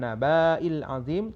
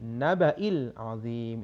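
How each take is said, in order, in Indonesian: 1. Vokal sebelum hamzah itu panjang. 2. Vokal sebelum hamzah itu pendek. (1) "bukan naba'il azim" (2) "dibaca pendek"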